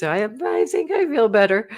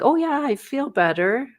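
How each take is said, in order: First: Hesitant, stammering, doubtful claim; unsure. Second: High, chirpy, overly bright claim; fake reassurance. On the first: Shown as a demonstration. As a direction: sound like you don't believe it. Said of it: "Like this". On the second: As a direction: brush it off too brightly. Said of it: "sometimes you're like".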